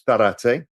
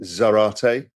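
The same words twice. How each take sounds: First: The name is said with a Spanish pronunciation. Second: The name is said with an English pronunciation. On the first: "If you lived in Spain, you'd call it" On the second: "you would pronounce it"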